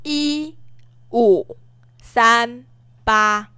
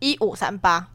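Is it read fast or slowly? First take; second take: slowly; fast. First: The numbers are read slowly. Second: The numbers are read fast.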